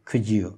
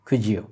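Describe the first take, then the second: The two takes are said the same way.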